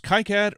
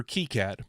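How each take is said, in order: First: KiCad said as KAI-cad; first syllable as "kai". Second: KiCad said as KEE-cad; first syllable as "kee". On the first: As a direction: say KiCad with "ki" rhyming with sky. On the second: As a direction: say KiCad with "ki" rhyming with see. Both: Shown as a demonstration. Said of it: "is it pronounced KiCad or KiCad".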